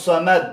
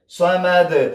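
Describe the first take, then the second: First: The final d stops flat without a bounce. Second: The final d is released with a slight bounce. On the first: The speaker calls it wrong. "داسې به نه وایي ... دا غلط دی" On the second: The speaker calls it right. "داسې باید یو دال یو ټکان وخوري"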